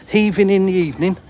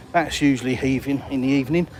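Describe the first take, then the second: First: HEAVING hit higher and louder, savouring the rhyme; playful rhyming repeat. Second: Said in the usual way. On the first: Shown as a demonstration. Repeating the rhyme to viewers, playful and punchy. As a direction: relish the rhyme of Heaving and evening.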